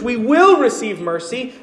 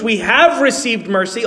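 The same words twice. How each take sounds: First: "will" lifted in pitch above the other words; "will" stressed as the key word. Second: Emphasize "have" to set it against the future; "have" stressed as the key word. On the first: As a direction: punch "will" to point to the future. Contrasts future with past mercy. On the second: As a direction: lean on "have", the other words lighter. Contrasts past with future mercy. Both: Real, not acted.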